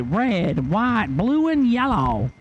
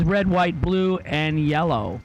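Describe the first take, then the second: First: Alvin's lane call. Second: Said in the usual way. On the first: Retold or imitated. Announcer mimicking colleague calling racers to the lanes, pitched up. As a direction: sing out the colors the way Alvin does, climbing high. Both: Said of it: "As Alvin would say".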